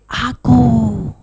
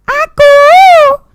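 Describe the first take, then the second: First: Soft, drawn-out hushed call; quiet call to the audience. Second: Very high, long-held GO; high sing-out to the audience; high-pitched call. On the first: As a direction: call it quietly, letting GO trail. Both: Shown as a demonstration. Varied call for audience response.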